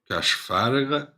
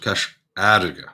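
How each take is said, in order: First: The second word begins with an F sound. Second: The second word begins with a vowel. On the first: The speaker calls it wrong. "you wouldn't call it Cash Farige" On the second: The speaker calls it right. "you would call it Cash Arige, because F H you never pronounce"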